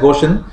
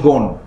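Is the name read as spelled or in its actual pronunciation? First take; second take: as spelled; actual. First: The name is read out as it is spelled. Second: The name is said in its actual pronunciation. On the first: The speaker calls it wrong. "it's written as Ghosn" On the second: The speaker calls it right. "but the pronunciation is Ghosn"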